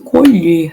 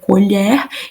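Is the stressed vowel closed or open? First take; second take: closed; open. First: The stressed e vowel is closed. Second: The stressed e vowel is open. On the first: To harvest or pick. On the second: The utensil used for eating.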